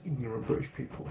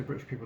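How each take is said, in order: First: Ignorant stressed firmly, British people plain after it. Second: Said in the usual way. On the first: Shown as a demonstration. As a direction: punch the word ignorant to correct yourself. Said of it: "I said ignorant British people". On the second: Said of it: "I didn't say British people there".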